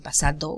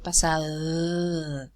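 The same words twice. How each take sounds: First: The d is made with full tongue contact. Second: The d is made without tongue contact. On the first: The speaker calls it wrong. "We don't we don't say pasado" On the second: The speaker calls it right. "we say pasado. So in pasado, there's no contact between the articulators"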